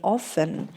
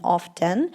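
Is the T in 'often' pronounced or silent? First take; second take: silent; pronounced. First: The T sound is not pronounced. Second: The T sound is clearly pronounced. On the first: "the T was silent" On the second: "voicing the T"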